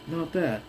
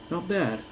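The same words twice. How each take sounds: The two takes are said the same way.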